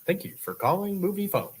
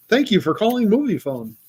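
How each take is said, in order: First: High announcer imitation of Movie Phone. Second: Movie Phone voice. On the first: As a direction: copy the Movie Phone recording voice. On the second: Retold or imitated. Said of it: "That's my commercial voice".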